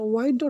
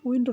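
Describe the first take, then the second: First: The vowel is long, as in 'wine'. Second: The vowel is short, as in 'win'. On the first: It means to bend or twist. "ওয়াইন্ড অর্থ বাঁকানো" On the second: It means moving air. "উইন্ড অর্থ বাতাস"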